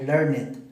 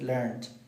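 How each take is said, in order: First: The ending is said as an extra 'it' syllable. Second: The ending is said without an extra syllable. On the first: The speaker calls it wrong. "yo lo pronuncié como si fuera it" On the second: The speaker calls it right. "me dijo es learned"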